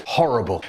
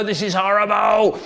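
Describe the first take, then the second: First: Said in the usual way. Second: Hammed-up disgust, stretched out on horrible; mock disgust. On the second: Shown as a demonstration. Tomato-hater tasting a tomato, hammed-up disgust. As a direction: groan the word horrible as if the tomato is vile.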